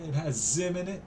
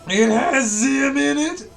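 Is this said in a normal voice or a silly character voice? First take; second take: normal; character voice. First: It is read in the speaker's normal voice. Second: It is read in a silly, strained character voice.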